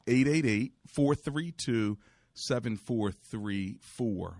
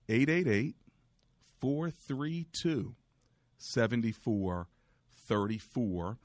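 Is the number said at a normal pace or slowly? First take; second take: normal; slowly. First: The number is said at normal speed. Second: The number is said more slowly.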